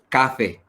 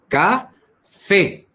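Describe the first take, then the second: First: The stress is on the first syllable. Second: The stress is on the last syllable. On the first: The speaker calls it wrong. "no es café" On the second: The speaker calls it right.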